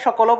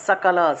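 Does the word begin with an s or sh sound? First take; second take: sh; s. First: The first consonant is a sh sound. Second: The first consonant is an s sound. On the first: This is the everyday Bengali way. The speaker calls it wrong. "বাংলায় সকলও বলে ফেলি" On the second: This is the Sanskrit way. The speaker calls it right. "সংস্কৃতে বলতে হবে সকল"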